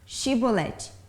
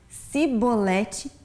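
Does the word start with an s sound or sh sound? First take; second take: sh; s. First: The word begins with a sh sound. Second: The word begins with a plain s sound. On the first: The speaker belongs to the Gileadite side. The speaker calls it right. "com o som do C H ou X" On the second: The speaker is revealed as an Ephraimite. The speaker calls it wrong. "não conseguia pronunciar com o som do C H ou X"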